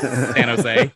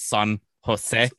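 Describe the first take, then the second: First: The two words are blurred into one word. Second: The two words are said separately and clearly. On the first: This is how locals say it. "But we call it San Jose" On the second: This is the standard pronunciation. "Pronounced like it's San Jose"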